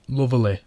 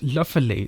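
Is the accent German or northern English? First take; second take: northern English; German. First: It is said in a northern English accent. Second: It is said in a German accent. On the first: "lovely in the northern accent" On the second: "in a generic German accent"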